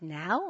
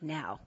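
First: "Now" as a surprised question; querying "Now", checking he means it. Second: "Now" low and falling, soft; low, settled "Now" as a statement; firm answer. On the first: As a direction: ask "Now" with the pitch going up. Her questioning reply. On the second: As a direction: confirm "Now" quietly with a downward tune. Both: Retold or imitated.

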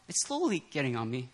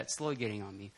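First: Said in the usual way. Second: Quiet lower repeat. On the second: Shown as a demonstration. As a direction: say it again under your breath, lower. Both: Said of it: "I'll say that".

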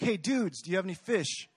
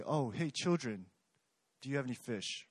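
First: Easygoing matey greeting, pitched up; casual friendly. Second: Talking down to them, a touch softer; mildly patronizing call to the fishermen; condescending. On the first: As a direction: hail them like old buddies. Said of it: "it would be like". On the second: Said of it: "it sounds a bit condescending". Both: Retold or imitated.

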